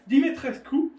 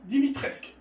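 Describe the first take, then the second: First: The name ends with an audible final u vowel. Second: The name ends on the k sound, no vowel. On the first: The speaker calls it wrong. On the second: The speaker calls it right.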